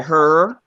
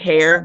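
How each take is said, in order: First: It is said in a Deep South accent. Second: It is said in a standard accent.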